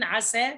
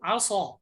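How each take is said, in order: First: The s sound is light, with the tongue lowered. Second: The s sound is heavy, with the tongue raised. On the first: The intended meaning is kept. The speaker calls it right. "الانفتاح في السين عسى سا سا" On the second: The word's meaning changes. The speaker calls it wrong. "ستقرأ عصى الله عصى صا"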